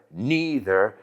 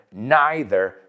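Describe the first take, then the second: First: Neither said NEE-ther; "neither" with an ee vowel; long E pronunciation. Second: Neither said NIGH-ther; "neither" with an eye vowel; long I pronunciation. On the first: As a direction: say neither starting like knee. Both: Shown as a demonstration. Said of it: "several accepted pronunciations".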